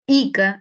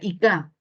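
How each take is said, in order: First: The stress is on the usual syllable. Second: The stress is moved to another syllable. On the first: "nombre propio" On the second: "si movemos sería Ica"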